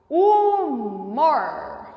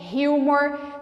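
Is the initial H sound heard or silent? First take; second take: silent; heard. First: The word starts with no H sound. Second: The word starts with an audible H sound. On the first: This is the Portuguese way. "O H não tem som" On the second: This is the English way. "Em inglês a gente fala"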